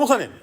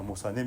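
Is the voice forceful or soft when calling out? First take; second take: forceful; soft. First: It is said forcefully in a high, strong pitch. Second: It is said gently in a low, even pitch. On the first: "저는 솔, 라인데" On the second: "우리 목사님들은 다 부드러워. 그러니까 거의 미, 도레, 미예요"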